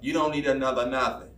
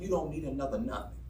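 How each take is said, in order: First: It is said in a put-on motherly voice. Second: It is said in an ordinary voice.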